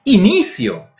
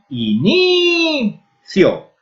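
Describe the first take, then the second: First: Said in the usual way. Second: Inicio very slowly, with a long high "ni"; inicio, holding "ni" before a short "cio"; stress on NI. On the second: Shown as a demonstration. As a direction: stretch and raise the "ni" in inicio. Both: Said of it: "a vocal tónica está na N I".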